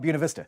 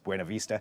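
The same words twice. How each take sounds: First: Buena is said with an anglicized pronunciation. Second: Buena is said with a Spanish pronunciation. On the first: "Rural Oregon is called" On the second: "the Spanish pronunciation is"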